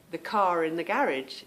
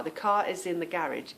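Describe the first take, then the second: First: "car in" with R carried onto "in"; linking R. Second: "car is" said with the R left silent; no linking R. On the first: Contrasting for viewers, "car in" with R coming in. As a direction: let the R join "car" to "in". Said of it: "then the R comes in". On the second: Contrasting for viewers, "car is" with no R heard. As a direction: keep "car" R-less before "is". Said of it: "you wouldn't hear the R". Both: Shown as a demonstration.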